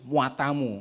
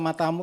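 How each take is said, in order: First: The first vowel is stretched into 'ua'. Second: The first vowel is short and plain. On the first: It is a real curse. The speaker calls it right. "That is the correct apa namanya rhyme" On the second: It is not an insult. The speaker calls it wrong. "kalau matamu itu bukan misuh"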